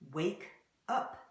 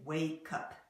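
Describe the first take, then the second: First: The two words are said separately. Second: The k sound joins onto the second word. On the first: "you may read wake up" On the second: "an English speaker will say wake up"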